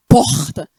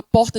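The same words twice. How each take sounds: First: Loud Rio "porta" with a strong, drawn-out R; Rio accent. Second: Said in the usual way. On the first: Shown as a demonstration. Preacher showing how people talk in Rio, "porta" with strong carioca R. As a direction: push the R in "porta" hard, carioca style. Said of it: "é um R forte". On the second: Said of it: "a gente fala muito assim".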